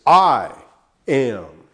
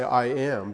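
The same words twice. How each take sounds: First: "I" hit hard and much louder, then "am."; emphatic I am. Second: Said in the usual way. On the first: Shown as a demonstration. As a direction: punch "I" loud, let "am" drop. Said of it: "It's very emphatic in the original language". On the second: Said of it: "eimi is enough to say".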